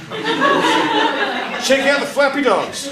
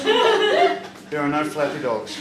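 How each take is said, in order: First: High, slow, laughing wonder; giddy drugged delight. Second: Said in the usual way. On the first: Retold or imitated. To the nurses on the ward, high laughing glee. Drugged patient sees flappy dogs.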